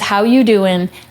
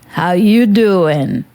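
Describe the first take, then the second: First: It is said in her own normal voice. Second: It is said in a Joey impression voice.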